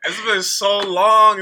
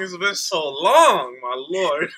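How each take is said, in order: First: Slow, loud, through laughter; laughing. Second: Laughing. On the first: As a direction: stretch it out while still laughing. Laughing disbelief at old memory. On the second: Laughing disbelief continues. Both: Real, not acted.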